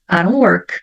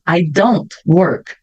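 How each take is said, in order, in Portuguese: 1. O d soa como r; o t final não é pronunciado. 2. O d e o t final são ambos pronunciados claramente. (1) "O D virou um som de R... a última letra eu não pronuncio" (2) "Poderia falar"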